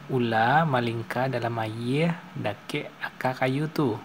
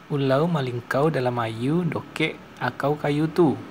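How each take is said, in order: First: Final r and l sounds are simply dropped. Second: Final r and l become an 'au' sound. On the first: "Contoh kalimat bahasa Minang umumnya itu seperti ini" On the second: "Sementara bahasa Sungai Lansek"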